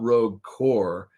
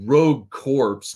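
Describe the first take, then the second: First: The last word ends without a ps sound. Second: The last word ends with a ps sound. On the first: The speaker calls it right. "I know it's core" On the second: The speaker calls it wrong. "I just like saying corpse"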